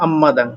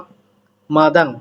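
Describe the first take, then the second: First: An m sound comes before the m. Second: A p sound comes before the m. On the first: The speaker calls it right. "কিন্তু হলো আম্মাদাং" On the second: The speaker calls it wrong. "হওয়ার কথা ছিল আপমাদাং"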